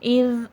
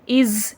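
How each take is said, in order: First: The final consonant is soft, without hissing. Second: The final consonant has a hissing sound. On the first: The speaker calls it right. "नरमी के साथ पढ़ेंगे।" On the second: The speaker calls it wrong. "ऐसा नहीं पढ़ेंगे कि सीठी की आवाज़ आए"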